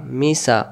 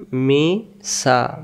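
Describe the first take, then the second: First: Said in the usual way. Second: Misa drawn out slowly; teacher slowing Misa down for the class; slow demo. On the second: Shown as a demonstration. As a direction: stretch Misa out syllable by syllable. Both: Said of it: "slow then normal take".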